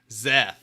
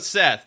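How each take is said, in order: First: The word begins with a z sound. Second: The word begins with an s sound.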